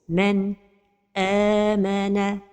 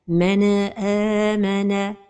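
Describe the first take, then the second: First: The voice stops briefly right after the n. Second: The n is released with an echoing bounce. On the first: "c'est la pause" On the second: "c'est al-qalqala de an-nun as-sakina"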